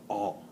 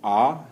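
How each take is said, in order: First: The vowel is said through the nose. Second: The vowel is said with raised pitch. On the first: "the nasal tone is" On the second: "the high tone is ah, like you, you raise it a bit"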